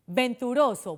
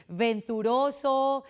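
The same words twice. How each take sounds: First: Said in the usual way. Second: "venturoso" slowly, V with teeth on lip; labiodental V. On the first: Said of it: "se tendría que pronunciar así". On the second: Shown as a demonstration. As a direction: draw out "venturoso" to show the labiodental V. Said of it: "supuestamente se tendría que pronunciar así".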